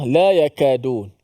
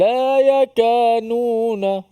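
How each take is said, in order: First: The consonant after 'yaka' is a d sound. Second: The consonant after 'yaka' is an n sound. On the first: The speaker calls it right. "hati-hati kalimah la yakadun" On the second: The speaker calls it wrong. "ramai juga yang tak perasan ... Dia sebut da tukar kepada nun"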